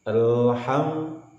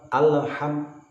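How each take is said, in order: First: The l is clean with no added vowel. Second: The l carries an added short vowel. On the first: The speaker calls it right. "Jangan sampai berbunyi dengan suara yang lain" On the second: The speaker calls it wrong. "menimbulkan efek le"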